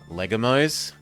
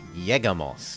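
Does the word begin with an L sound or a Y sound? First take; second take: L sound; Y sound. First: The word begins with an L sound. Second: The word begins with a Y sound. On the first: The speaker calls it wrong. "not Legamos" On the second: The speaker calls it right. "When the L sound is doubled, it's a Y sound"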